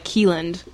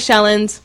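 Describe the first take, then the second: First: The name is said the non-Norwegian way. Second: The name is said the Norwegian way. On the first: The speaker stresses Norwegian roots less. "My parents go by Keeland" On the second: The speaker is proud of Norwegian roots. "I go by Shelland"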